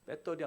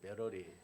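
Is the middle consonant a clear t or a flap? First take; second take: clear t; flap. First: The middle consonant is a clear t sound. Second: The middle consonant is a soft flap sound. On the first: "배터리 안 그러" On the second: "미국에 한 육 개월 있다가"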